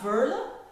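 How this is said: It is said with an English-speaking accent. The speaker calls it wrong. "like the Americans or the Australians or people from the U K are saying"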